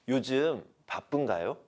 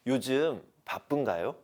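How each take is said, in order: First: It is asked in a soft, kind tone. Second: The same.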